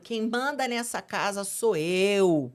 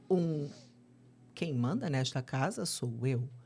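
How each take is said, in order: First: It is shouted loudly and harshly. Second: It is said calmly and firmly. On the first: Authority is imposed through yelling. The speaker calls it wrong. "com grito" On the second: Authority gives the child a sense of security. The speaker calls it right. "Olha a diferença"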